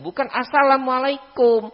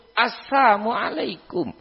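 First: Assalamualaikum said in full with the -lam- clearly kept, high and indignant; correct greeting. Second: Assalamualaikum slurred to "assamualaikum", dropping -la-, slow and mocking; twisted greeting. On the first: Retold or imitated. [name] shows the proper greeting assalamualaikum with a clear -lam-. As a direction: assalamualaikum pronounced properly, every syllable. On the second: [name] mimics the twisted "assamualaikum" greeting, slow and scornful. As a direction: say assalamualaikum as "assamualaikum", the insulting version.

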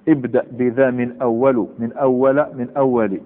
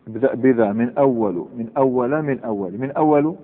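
First: ابدأ بذا من أولُ read slowly, then من أولَ, من أولِ; three readings demo. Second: ابدأ بذا من أول with the endings changing each time, trailing off; three readings repeated. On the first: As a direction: say من أول three ways with different endings. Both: Shown as a demonstration. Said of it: "حكى الفارسي ثلاث لغات في هذا".

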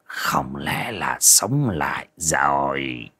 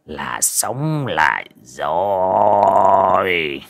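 First: Slow, low, whispery suspicion; hushed, drawn-out disbelief; doubtful musing. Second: Very slow, drawn-out triumphant croon; elated shaman savoring the words; gloating delight. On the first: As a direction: wonder slowly under your breath. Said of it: "nghi hoặc". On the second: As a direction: stretch every word with relish. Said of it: "sướng híp cả mắt". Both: A narrator's reading.

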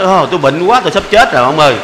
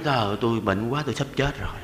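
First: Louder hammed-up moaning about being ill; mock sick complaint. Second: Lower, softer pretend weakness; mock feeble patient. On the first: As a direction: overplay the sick old man for laughs. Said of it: "nói". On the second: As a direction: fake being too sick to bother anyone. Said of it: "cái mình nói".

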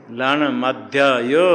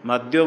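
First: लण मध्य यो slow, with यो clearly separate and rising; correct form. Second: मध्यो run together as one word; wrong form. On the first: Teacher showing the correct लण मध्य यो slowly. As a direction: spell out लण मध्य यो slowly, keeping यो apart. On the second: Teacher mimicking students' fused मध्यो. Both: Shown as a demonstration. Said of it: "मध्यो नहीं".

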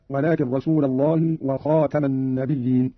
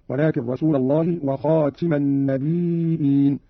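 First: Said in the usual way. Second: وخاتم read "khatima", النبيين with a hamza; active-participle reading. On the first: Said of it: "على أنه اسم فاعل". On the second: Shown as a demonstration. Teacher shows Qalun's reading, وخاتم as "khatim". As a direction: say وخاتم with i after the t, النبيين as "nabi'in". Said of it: "قرأ قالون".

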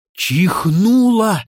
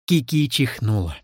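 First: Чихнула drawn out slowly, higher and louder; stress on чихнула. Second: Said in the usual way. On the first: A narrator's reading. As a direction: blow up чихнула into something huge. Narrator corrects it to a huge sneeze.

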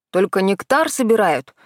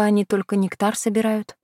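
First: Обиженно. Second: Said in the usual way. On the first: Acted. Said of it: "возмутился". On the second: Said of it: "обиженно фыркнул".

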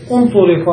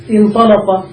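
First: انطلق said "untuliqa"; passive-voice vowels. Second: انطلق said "intalaqa"; active-voice vowels. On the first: Teacher showing the passive form, انطلق as "untuliqa". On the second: Teacher giving the active verb, انطلق as "intalaqa". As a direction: begin انطلق with "i", then open "a" vowels. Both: Shown as a demonstration. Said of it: "إذا بنيت للمجهول".

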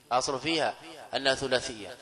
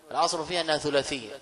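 First: Slower, with فيها drawn out; slow emphatic repeat. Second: Quick rule, فيها stressed; quick first statement. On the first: Teacher to class, repeating the rule slowly. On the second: Teacher to class, quick first statement of rule. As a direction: rattle off الأصل فيها أنها ثلاثية. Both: Shown as a demonstration.

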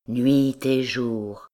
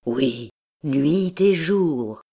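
First: "nuit et jour" drawn out slowly, stress on "nuit"; "nuit et jour" slow and mournful, falling at the end; slow plaintive stress. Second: "oui, nuit et jour" slow, louder and rising, stress on "et"; "nuit et jour" swelling in anguish, slow and louder; louder anguished repeat. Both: A narrator's reading. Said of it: "un accent plaintif et doux".

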